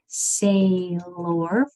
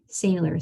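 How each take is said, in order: First: The last syllable is said like 'or'. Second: The last syllable is said like 'er'. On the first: The speaker calls it wrong. "we don't say sailor" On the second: The speaker calls it right. "We say tractor, sailor"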